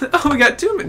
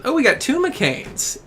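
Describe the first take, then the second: First: High and laughing through it. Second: High, slow surprised exclaim; drawn out in high surprise at the screen. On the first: Streamer cracks up at the two McCains, laughing. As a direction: breaks into laughter mid-word. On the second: Streamer notices two McCains, high slow surprise. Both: Real, not acted.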